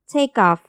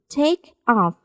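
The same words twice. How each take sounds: First: The linked k is softened into a voiced sound. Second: The two words are said separately, unlinked.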